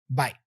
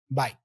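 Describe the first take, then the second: The two takes are said the same way.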